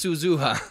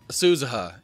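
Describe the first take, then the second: First: Each vowel is given its full, clear sound. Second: The vowels are slurred and reduced, English-style. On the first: The speaker calls it right. "it's Suzuha" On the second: The speaker calls it wrong.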